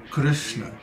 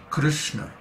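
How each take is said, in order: Both takes have the same delivery.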